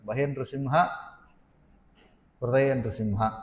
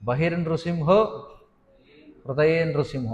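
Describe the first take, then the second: First: The words end in plain 'a' sounds. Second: The words end in 'o' and 'e' sounds. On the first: The meaning changes. The speaker calls it wrong. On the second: The meaning is kept as written. The speaker calls it right.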